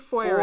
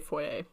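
First: The word is given an American pronunciation. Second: The word is given a British pronunciation. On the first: "I say foyer as an American person" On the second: "they would say foyer. As uptight British people"

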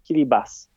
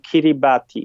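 First: The 'ti' is pronounced as an 's' sound. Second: The 'ti' is pronounced as written, 'ti'. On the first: This is the form of the name in the local language. "litery T i, które stoją obok siebie, są wymawiane jako S" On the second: This is the Polish form of the name. "W języku polskim stosujemy taką nazwę, jaką się pisze"

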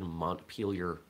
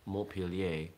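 First: It is said with an American accent. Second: It is said with a French accent. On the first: "it becomes Americanized" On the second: "with a proper French accent"

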